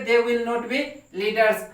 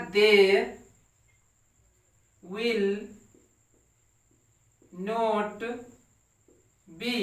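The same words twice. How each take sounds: First: Said in the usual way. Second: Each word set apart by long pauses; slow word-by-word dictation. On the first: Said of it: "teacher repeats sentence". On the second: Shown as a demonstration. Teacher dictating to the class, word by word, slowly. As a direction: dictate it one word at a time for students to copy. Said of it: "teacher dictating word by word".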